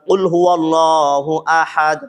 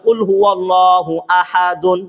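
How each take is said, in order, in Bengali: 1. শেষ শব্দটি খালি 'd' উচ্চারণে থেমে যায়। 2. শেষ শব্দটি পূর্ণ '-dun' দিয়ে শেষ হয়। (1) "হুজুর বলে থামে" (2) "লেখা আছে আহাদুন"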